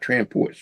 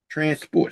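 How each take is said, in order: First: Said as one run-together word, transports. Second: Said as two separate words, trans and sports. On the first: Means of transport. The speaker calls it wrong. "not transports" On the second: Sports for transgender people. The speaker calls it right.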